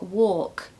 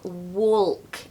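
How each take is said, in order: First: No L sound is heard in the word. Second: An L sound is heard in the word. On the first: The speaker calls it right. "actually it's more walk" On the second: The speaker calls it wrong. "I hear people saying walk and talk"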